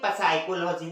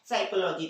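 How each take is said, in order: First: It begins with a P sound. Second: It begins with an S sound. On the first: The speaker calls it wrong. "पढ़ना क्या चाहिए था उसे?" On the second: The speaker calls it right. "क्या पढ़ते हैं?"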